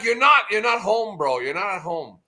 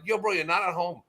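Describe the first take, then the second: First: Shouted, higher and louder, fading off at the end; yelled rebuke. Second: Said in the usual way. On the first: Retold or imitated. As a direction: bark it at a friend who went too far. Telling off Oz in chat.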